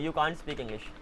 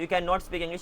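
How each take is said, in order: First: 'Can not' is shortened into one syllable. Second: 'Can not' is said as two full words. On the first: "या तो short कर दो" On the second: "या तो ऐसे लिखो"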